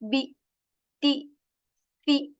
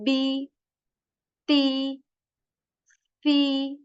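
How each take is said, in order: First: Each short vowel is cut off with a jerk. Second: Each short vowel is held smoothly for a moment. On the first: The speaker calls it wrong. "you're not supposed to make a jerk in this kasra" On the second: The speaker calls it right. "you just say for about one to two two seconds"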